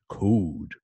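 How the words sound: The vowel has very strong lip rounding. "U S pronunciation in these examples is very, very round"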